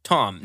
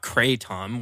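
First: Kratom as "kra... TOM", in two parts; kra-TOM for Kratom, syllables apart; as-spelled pronunciation. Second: Kratom as "KRAY-tom"; KRAY-tom for Kratom, as if spelled with a Y; wrong long-A pronunciation. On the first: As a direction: say Kratom with an "ah" in front. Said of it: "it would be read". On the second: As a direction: say Kratom with "cray" in front. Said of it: "Where's the Y?". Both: Shown as a demonstration.

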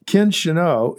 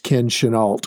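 First: Chenault said shih-NO, stress on the end, no final L; first pronunciation. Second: Chenault said sheh-NAHL, ending on a clear L; alternate pronunciation. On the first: Host tries the CEO's name as shih-NO. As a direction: Chenault as shih-NO with the T and L silent, French style. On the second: Host offers the CEO's name as sheh-NAHL instead. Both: Shown as a demonstration. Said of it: "also pronounced".

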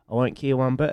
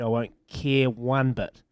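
First: Said in the usual way. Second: "I won't care one bit" said slowly, each word weighted; slow emphatic. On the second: Shown as a demonstration. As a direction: lean on "care", draw the line out firmly.

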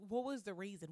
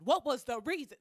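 First: Said in the usual way. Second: Much louder, higher demand for an explanation; exasperated shout. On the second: Acted. Confronting a former friend over their actions, exasperated shout. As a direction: yell it at the friend who wronged you.

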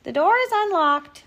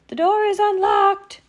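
First: Put-on high, louder old-lady voice; storybook grandmother's high reply; Granny calling out. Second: Very high, loud falsetto; wolf badly posing as an old lady; overdone granny call through the door; fake Granny voice. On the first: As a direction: call through the door like a granny. Granny answers the visitor. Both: A narrator's reading.

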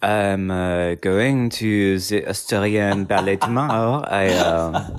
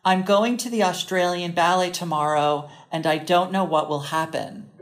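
First: Botched Australian accent sliding toward French; halting, slow try at an Australian accent; Australian accent attempt. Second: American accent. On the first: Attempting the phrase for co-host, muddled Australian-French accent. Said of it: "I'm gonna have you attempt it". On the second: Setting a phrase for co-host to attempt, American accent. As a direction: demonstrate it in a clear American accent. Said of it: "I'm gonna say it in an American accent". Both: Shown as a demonstration.

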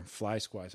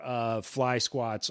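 First: Muttered under the breath, doubting; quiet puzzled repeat. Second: Said in the usual way. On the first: Real, not acted. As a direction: softly question the made-up word. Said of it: "I don't even know if that's a thing". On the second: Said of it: "Fly squats. I don't even know if that's a thing".

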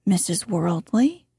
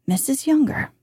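First: "Worldly" ends on an upward questioning lift; rising inflection. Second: "Younger" starts up and falls to a finish; statement of fact. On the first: Introducing the more important lady first, rising inflection. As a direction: tip WORLDLY up, as if asking. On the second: Introducing the secondary lady, falling statement tone. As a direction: land YOUNGER as a mere fact. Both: Shown as a demonstration. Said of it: "Use the same inflection exactly".

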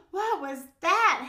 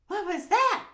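First: Slow, high, loud wail; alarmed howl. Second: Quick, high, loud cry; startled yelp. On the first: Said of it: "howled Max". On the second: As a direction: yelp it in sudden fright. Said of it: "yelped Max". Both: A narrator's reading.

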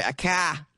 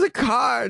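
First: "car" as "cah" in Boston style; Boston accent. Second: Said in the usual way. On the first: Shown as a demonstration. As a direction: correct yourself to a Boston "car", no R. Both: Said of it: "I'm sorry, a car".

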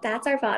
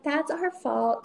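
First: Said in the usual way. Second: A drawn-out, sheepish admission; slow mock apology. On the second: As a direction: draw it out, higher and slow. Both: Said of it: "And she was like".

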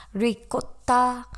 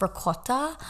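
First: Slow, higher Italian-accented "Ricotta"; drawn-out Italian "Ricotta"; Italian-style pronunciation. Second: Said in the usual way. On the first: Shown as a demonstration. Repeats word in Italian-style pronunciation.

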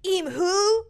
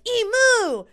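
First: First emus hooting to the flock, high loud mock bird call; high, loud questioning emu call. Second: High, loud mock bird cry; answering emu call. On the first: One emu calling to the others, high loud hoot. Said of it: "I feel like the emus were like". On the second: Other emus answering the first, very high loud cry. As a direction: blare it back as an answering emu. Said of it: "the other ones would be like".

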